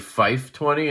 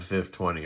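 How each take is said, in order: First: The first word has a long 'eye' vowel. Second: The first word has a short 'ih' vowel. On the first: The speaker calls it wrong. "I've heard people say Fife twenty, and I want to punch them" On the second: The speaker calls it right. "It's F I F twenty"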